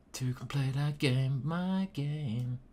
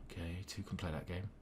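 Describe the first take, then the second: First: Half-sung with drawn-out notes; sung, playful singsong. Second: Said fast and very softly; quiet muttering. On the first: Pretend. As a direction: croon it playfully to yourself. Repeats the phrase, playing with it. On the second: Real, not acted. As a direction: mutter it quickly to yourself. First take, muttered to himself.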